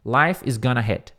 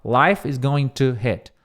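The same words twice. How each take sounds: First: "gonna" clipped to gah-nuh; relaxed "gonna" form; reduced gonna. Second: "going to" said in full, slow; "going to" unreduced, slowly. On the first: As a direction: squash "going to" into "gonna". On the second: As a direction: give "going to" both syllables. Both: Shown as a demonstration. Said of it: "em vez de falar".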